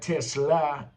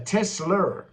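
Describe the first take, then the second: First: The word ends with an 'ah' sound. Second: The word ends with an 'er' sound. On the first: The speaker calls it right. "not Tesla, E R" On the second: The speaker calls it wrong. "You calling the car a"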